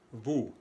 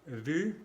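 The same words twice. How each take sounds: First: VOUS with a back oo vowel; French ou sound. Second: VU with rounded lips and a tight front vowel; French u sound. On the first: Teacher contrasting vous with vu, back oo. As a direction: say VOUS like Spanish u. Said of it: "y el sonido U". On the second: Teacher contrasting vu with vous, French u. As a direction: say VU with French u, pitched up. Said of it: "los sonidos U". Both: Shown as a demonstration.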